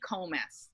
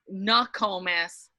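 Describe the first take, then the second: First: The word is said without its first syllable. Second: The word is said with its first syllable. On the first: It is the casual, colloquial form. The speaker calls it wrong. "my grandson calls me Comus" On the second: It is the full, proper form. The speaker calls it right. "would be a more appropriate pronunciation"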